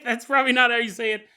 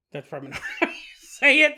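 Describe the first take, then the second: First: Said in the usual way. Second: Laughing through the words, higher and louder, fast. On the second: Real, not acted. Host laughing at mangling the name, laughing. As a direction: giggle at your own mispronunciation.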